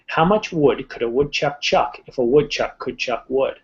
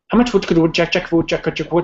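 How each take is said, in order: First: It is spoken at a slow pace. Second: It is spoken at a fast pace. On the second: "time me for going fast"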